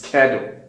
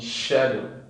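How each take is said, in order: First: The word begins with a k sound. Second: The word begins with an sh sound. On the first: "the American pronunciation is schedule" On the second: "this is British pronunciation"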